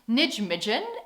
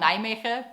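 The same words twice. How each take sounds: First: The name is read out with English sounds. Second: The name is said with Dutch sounds.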